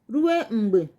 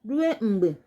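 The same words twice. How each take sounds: No difference in how they are said.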